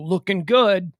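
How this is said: It sounds flat and mocking. The runner is being made fun of. The speaker calls it wrong. "that fat guy could be like, what is this guy making fun of?"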